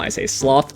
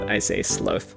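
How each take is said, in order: First: The vowel sounds like the one in 'cloth'. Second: The vowel sounds like the one in 'slow'. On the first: It names the animal. "when I'm talking about the animal" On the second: It names the deadly sin. "When I'm talking about the deadly sin ... It's from slow plus th"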